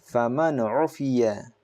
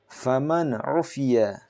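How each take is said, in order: No difference in how they are said.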